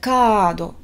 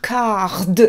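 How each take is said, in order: First: It is said Japanese-style with a lengthened vowel. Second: It is said with a French-style R.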